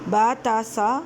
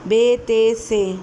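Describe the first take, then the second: First: Each letter name ends in a short 'a'. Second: Each letter name ends in an 'e' vowel. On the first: "इस तरह भी नहीं पढ़ेंगे" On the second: "Urdu तलफ़्फ़ुज़ और मजहूल तरीके से नहीं पढ़ेंगे"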